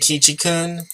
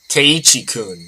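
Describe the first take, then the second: First: The name is pronounced Kichi. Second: The name is pronounced Keiichi. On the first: The speaker calls it wrong. "I think I've been mispronouncing that the entire time" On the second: The speaker calls it right. "It's Keiichi"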